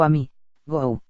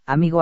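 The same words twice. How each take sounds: First: "a mí, go" broken up, pause before the last syllable; "a mí, go" divided, with "go" set apart; split into syllables. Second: Said in the usual way. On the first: Shown as a demonstration. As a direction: say "a mí, go" as pieces of one word. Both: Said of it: "dividimos una palabra al pronunciarla".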